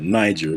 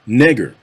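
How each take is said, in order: First: The name is said with its modern pronunciation. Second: The name is said with its older pronunciation. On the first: This is how the river is called today. "That's a relatively modern pronunciation of it" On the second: This is what the river was called back in the day. "why I'm not pronouncing that Niger"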